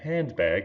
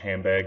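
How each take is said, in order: First: The n sound is said fully before the b. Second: The n sound shifts to an m before the b. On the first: "instead of saying handbag" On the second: "most of us would say something like handbag when we're talking quickly"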